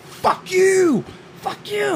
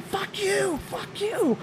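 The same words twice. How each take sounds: First: Imitating a furious driver, much higher; high shrill-free mock road rage yell. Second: Imitating a furious driver, much higher; high, softer mock road rage yell. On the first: Mimicking the lady in traffic, a much higher mock angry yell. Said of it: "she's going". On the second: Mimicking the lady doing it again, a much higher mock angry yell. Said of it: "she's doing it again".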